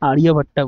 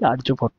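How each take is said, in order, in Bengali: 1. নামটি একটা খোলা 'a' স্বরধ্বনি দিয়ে শেষ হয়। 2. নামটি অতিরিক্ত 'a' স্বরধ্বনি ছাড়া শেষ হয়। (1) "ইংলিশ মিডিয়ামের লোকেরা আর্যভট্টা বলে" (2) "আমরা বাঙালি আমরা এটাকে বলি আর্যভট্ট"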